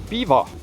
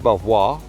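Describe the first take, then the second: First: The name sounds like 'beaver'. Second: The name sounds like 'bel-vwar', as spelled. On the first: The speaker calls it right. "it is Beaver" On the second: The speaker calls it wrong. "It's not Belvoir"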